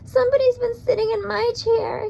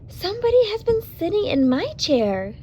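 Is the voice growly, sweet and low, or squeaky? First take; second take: squeaky; sweet and low. First: It is said in a high, squeaky voice. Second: It is said in a sweet, low voice.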